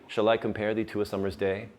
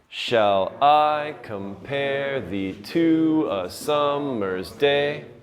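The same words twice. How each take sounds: First: The line is read with natural, even stress. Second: Every second syllable is heavily, mechanically stressed.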